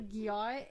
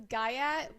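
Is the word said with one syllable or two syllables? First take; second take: one syllable; two syllables. First: It is said as gyat, in one syllable. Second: It is said as guy-at, in two syllables. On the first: This is how the word really is. The speaker calls it right. "but it's literally gyat" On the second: This is how someone else says it. The speaker calls it wrong. "my brother pronounces this guyat"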